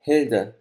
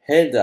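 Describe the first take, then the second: First: Said in the usual way. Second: Name called out high and loud; sudden loud call of a name; said loudly. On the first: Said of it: "the name comes to me". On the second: A narrator's reading. Narrator grasping the woman's hand as he remembers her name, loud call. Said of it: "I say loudly".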